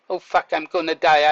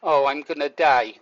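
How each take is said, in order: First: A sudden alarmed outburst of panic; panicked thought. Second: Low, matter-of-fact acceptance; calm resignation. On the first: Man recalling choking, voicing the panic he didn't feel, alarmed. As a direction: blurt it out as if truly scared. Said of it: "but I wasn't thinking". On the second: Man recalling choking, voicing his actual calm thought, resigned. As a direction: say it calmly, almost shrugging. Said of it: "I thought". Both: Shown as a demonstration.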